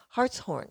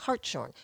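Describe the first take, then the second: First: The middle is said as separate 's' and 'h'. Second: The middle is said as one 'sh' sound. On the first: The speaker calls it right. "it's Hartshorne, like the horn of a heart" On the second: The speaker calls it wrong. "you had been saying Hartshorne, which is not"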